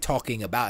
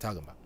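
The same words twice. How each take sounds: First: Every syllable is said clearly and fully. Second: The syllables are clipped and run together. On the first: "I didn't say talking about" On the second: "I said talking about"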